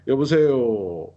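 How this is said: The final syllable is drawn out and rising. This is typical of ethnic Korean speakers from China. "이렇게 끌진 않거든요"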